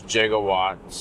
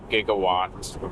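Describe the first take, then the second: First: Giga is not said as in gigabytes. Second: Giga is said as in gigabytes. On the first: This is how others say it. "they pronounce it as gigawatts" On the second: This is the speaker's habitual way. "I'm used to pronouncing it as giga, so I'm going to pronounce it as gigawatts"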